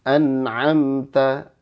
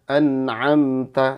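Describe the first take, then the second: No difference in how they are said.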